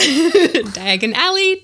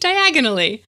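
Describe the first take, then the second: First: Two words, with the main stress on 'Al'. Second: Said fast as one word, stressed on 'ag'.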